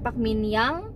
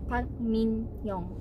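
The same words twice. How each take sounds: First: The last syllable sounds like 'yang'. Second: The last syllable sounds like 'young'. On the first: The speaker calls it wrong. "bukan Yang" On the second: The speaker calls it right. "dibacanya Young"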